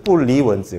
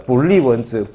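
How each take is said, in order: First: 불리원즈 with rising tone on 리; Chinese tones of 不離文字. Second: Slow 불리원즈, falling tone on 리; Chinese tones of 不立文字. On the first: Lecturer contrasting Chinese tones for students, rising 리 in 불리원즈. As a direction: drop 불, then lift 리 in 불리원즈, as in 不離. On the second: Lecturer contrasting Chinese tones for students, falling 리 in 불리원즈. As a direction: stretch 불리원즈, lifting 불 and dropping 리, as in 不立. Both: Shown as a demonstration. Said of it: "이성이고 사성이고 이게 발음만 다르지".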